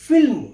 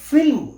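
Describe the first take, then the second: Both takes have the same delivery.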